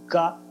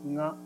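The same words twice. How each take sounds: First: The consonant is a plain stop g. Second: The consonant is a nasal ng sound. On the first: "普通の時はがです" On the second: "リダックンはがです"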